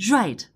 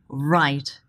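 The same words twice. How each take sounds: First: The r sound is made with audible friction. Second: The r sound is made without any friction. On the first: The speaker calls it wrong. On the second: The speaker calls it right.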